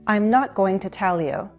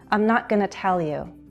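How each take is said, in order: First: Going to is said fully, at slower speed. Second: Going to is reduced to gonna, spoken faster.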